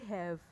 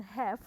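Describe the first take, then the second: First: "have" ending in a voiced v; "have" as "hev", v not f; correct "have". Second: "have" ending in f, "hef"; "have" with a hissed f ending; wrong "have". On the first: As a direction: say "have" with a buzzing final v. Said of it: "tapi have". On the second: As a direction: say "have" with f for the final v. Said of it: "Baca bukan have". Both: Shown as a demonstration.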